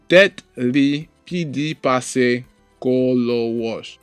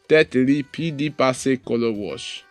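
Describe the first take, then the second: First: The sentence is spoken slowly. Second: The sentence is spoken at normal speed.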